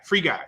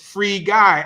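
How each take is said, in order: First: The two words are run together quickly. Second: The two words are said slowly and separately. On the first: The speaker calls it wrong. "don't say it fast, like Free Guy" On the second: The speaker calls it right. "as in release Guy"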